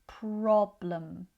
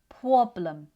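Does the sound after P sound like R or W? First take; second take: R; W. First: The sound after P is a clear R. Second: The sound after P is like a W. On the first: The speaker calls it right. "focus on making sure the jaw goes down" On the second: The speaker calls it wrong. "Pr can sometimes sound like pw"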